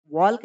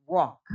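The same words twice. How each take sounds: First: "वॉल्क" with an audible L before K; wrong reading "वॉल्क", L voiced; L wrongly sounded. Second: "वॉक" with no L sound; silent L. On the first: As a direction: show the mistake "वॉल्क", pronouncing the silent L. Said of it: "वॉल्क नहीं बोलना है". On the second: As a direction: model "वॉक" clearly, vowel straight into K. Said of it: "एल silent होता है इसमें". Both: Shown as a demonstration.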